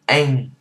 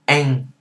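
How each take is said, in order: First: It has an open 'a' vowel ending in ng. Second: It has an open 'a' vowel ending in ng.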